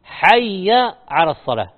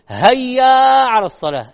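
First: "حي" begins with a breathy throat ḥ; correct ḥ sound. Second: "هيا" said with a plain h, loud, as the mistake; wrong h sound. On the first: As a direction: press the throat ḥ in "حي". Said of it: "هي حاء". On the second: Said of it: "هي ما هي هاء". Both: Shown as a demonstration.

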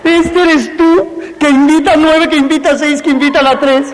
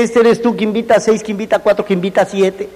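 First: Mock salesman pitch. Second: Quick, offhand run-through; rattled-off pitch. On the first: Mock pitch drawn on the board. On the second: Retold or imitated. Telling the brother what to say, quick rattled-off pitch. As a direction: rattle it off like it's nothing. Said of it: "tú dile".

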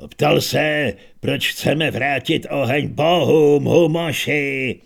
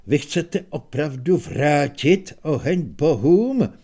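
First: Put-on louder, spelling it out for a deaf old man; raised voice for the deaf. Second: Minstrel asking. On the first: Repeating the question to deaf Humoš, louder and slower at the end. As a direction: speak up so the deaf one hears. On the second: Acted. Minstrel asks the old heroes.

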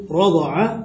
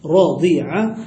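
First: رضع said slowly as rada'a; fatha on the dad. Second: راضع said slowly as radi'a; kasra on the dad. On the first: Teacher gives the first verb form, slow rada'a for رضع. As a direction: draw out رضع with an a after the ض. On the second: Teacher gives the other verb form, slow radi'a for راضع. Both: Shown as a demonstration. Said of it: "بكسر الضاد".

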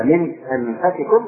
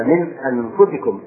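First: أنفسكم slowly, with "fa" in the middle; variant reading, fatha. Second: أنفسكم slowly, with "fu" in the middle; majority reading, damma. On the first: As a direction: say أنفسكم as anfasikum, taking it slowly. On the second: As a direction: say أنفسكم as anfusikum, taking it slowly. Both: Shown as a demonstration. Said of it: "قراءة أخرى".

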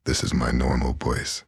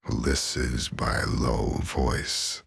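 First: Said in the usual way. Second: Slow, lowest voice she can reach. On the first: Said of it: "Middle voice". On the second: Shown as a demonstration. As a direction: push the voice down as far as it goes. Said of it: "Lowest voice".

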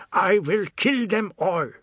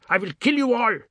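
First: Higher, slow, tearful threat; fury dissolving into tears; breaking into sobs. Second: Much higher, louder furious cry; a boy's screaming threat at intruders; screamed threat. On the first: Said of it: "his voice broke into sobs". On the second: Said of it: "and screamed". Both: Acted.

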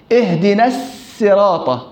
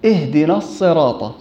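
First: "الصراط" with a thin s as in siin; wrong sin. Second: "الصراط" with a heavy emphatic s; careful thickened s in "الصراط"; correct sad. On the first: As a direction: slowly say "الصراط" as as-siraata, light s. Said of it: "لا،". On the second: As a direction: say "الصراط" with a full dark saad. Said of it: "بالصاد". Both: Shown as a demonstration.

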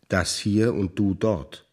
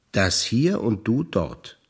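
The two takes are said the same way.

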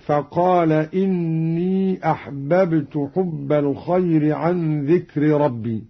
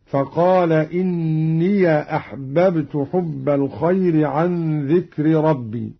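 First: Said in the usual way. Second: إني read إنيَ with an open ya. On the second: Shown as a demonstration. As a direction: carry إني into أحببت with a clear "ya". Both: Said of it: "فتح قالون الياء وصلا هكذا".

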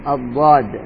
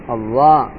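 First: الضاد said with the tongue kept inside the mouth, against the side teeth; proper dad. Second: الضاء said with the tongue out between the teeth; dha sound. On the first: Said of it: "إخراج الضاد". (الضاد من جانب اللسان) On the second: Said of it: "الضاء أبو عصا". (الظاء بإخراج اللسان) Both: Shown as a demonstration.

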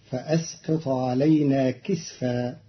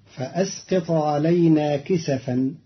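First: كسفا as "kisfa", two syllables; silent vowel on sin. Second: Said in the usual way. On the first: Shown as a demonstration. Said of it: "بإسكان". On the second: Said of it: "كلمة كسفا".

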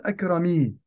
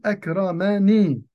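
First: "أكرمي" said akrami, dropping the nun so the final m takes i; the incorrect "أكرمي", with no n before the final i; wrong form, no nun. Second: "أكرمني" said akramani, with the nun of protection before the final i; "أكرمني" clearly voicing the n: akra-ma-ni; correct form, with the nun. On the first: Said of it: "لا أقول". (نطق "أكرمي" الخاطئ بلا نون) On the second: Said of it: "فأقول". (نطق "أكرمني" بنون الوقاية واضحة) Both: Shown as a demonstration.

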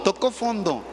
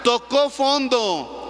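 First: Said in the usual way. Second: "tocó fondo" drawn out, slow, with a higher "tocó"; slow emphasis. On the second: Shown as a demonstration. Preacher stressing "tocó fondo" slowly to the congregation. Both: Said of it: "Dicho de otra manera".

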